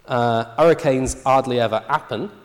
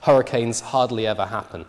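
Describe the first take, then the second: First: The initial H sounds are dropped entirely. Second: Each initial H is pronounced normally. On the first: "the natural tendency here is to drop the H" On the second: "pronounce this sentence with the H's in initial position"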